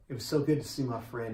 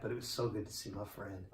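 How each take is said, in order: First: Said in the usual way. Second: "so good" said again much softer and dropping; quiet emotional echo of the line before; softer heartfelt repeat. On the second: Real, not acted. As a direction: repeat it softly, almost to yourself, with "so" falling.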